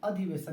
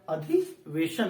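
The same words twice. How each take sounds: First: The hissing consonant is a plain s sound. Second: The hissing consonant is an sh sound. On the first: The speaker calls it wrong. "अधिवेशन नहीं" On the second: The speaker calls it right. "बल्कि अधिवेशन होता है ... श श शरीफा वाला श"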